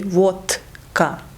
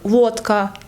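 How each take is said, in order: First: The middle consonant is voiceless. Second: The middle consonant is voiced.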